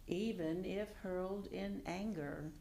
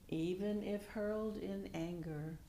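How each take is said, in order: Both takes have the same delivery.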